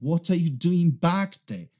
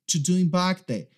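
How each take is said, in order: First: Every word is pronounced clearly and separately. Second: The opening words are cut and run together. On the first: This is the full underlying sentence. "Na verdade, ele está dizendo" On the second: This is how it sounds at normal conversational speed. "A gente acaba cortando palavras, letras ou até mesmo palavras para emendar tudo"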